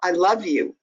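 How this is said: It is said warmly and lovingly. The speaker sincerely means the affection. "with all the love in your voice"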